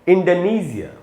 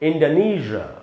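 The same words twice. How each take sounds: First: It is said in a British accent. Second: It is said in an American accent. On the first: "इसका जो British उच्चारण है वो है इंडोनेशिया" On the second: "American उच्चारण है दोस्तों इंडोनेशिया"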